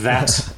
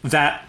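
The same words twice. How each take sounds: First: The final T is clearly pronounced. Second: The final T is dropped, New Jersey style.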